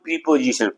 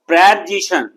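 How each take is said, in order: First: The first syllable has a long 'ee' vowel. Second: The first syllable has a short 'e' vowel. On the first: The speaker calls it wrong. "Not प्रीपोजिशन" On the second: The speaker calls it right. "प्रेपोजिशन not प्रीपोजिशन"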